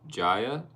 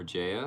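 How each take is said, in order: First: "Jaya" said JY-uh, rhymes with Maya; "Jaya" as JY-uh, rising at the end; first pronunciation guess. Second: "Jaya" said JAY-uh, first part like the letter J; "Jaya" as JAY-uh, offered softly as a correction; alternative pronunciation guess. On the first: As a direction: say "Jaya" with an EYE vowel, as a question. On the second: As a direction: say "Jaya" with a long AY vowel. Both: Shown as a demonstration. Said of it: "Or Jaya, I'm sorry".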